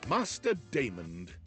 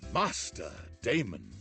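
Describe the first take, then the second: First: It is said in a plain voice. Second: It is said in a seductive voice.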